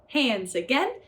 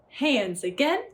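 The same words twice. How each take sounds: The two takes are said the same way.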